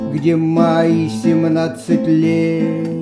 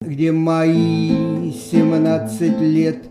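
First: The stress is on лет. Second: The stress is on мои.

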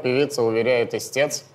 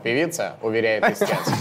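First: It is read as one unbroken phrase. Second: It has a break after the first word. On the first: The singer is making a claim. The speaker calls it wrong. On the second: The plaintiff is making a claim about the singer. The speaker calls it right.

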